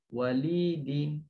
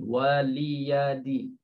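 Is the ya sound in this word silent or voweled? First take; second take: silent; voweled. First: The ya is silent, with no vowel after it. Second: The ya is pronounced with a vowel after it.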